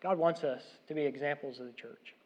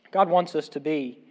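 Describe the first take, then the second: First: Said in the usual way. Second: Slow and louder, leaning on "God wants us to be"; emphatic slow repeat. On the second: Shown as a demonstration. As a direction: hammer home "God wants us to be" slowly. Preacher repeats his point, emphatic.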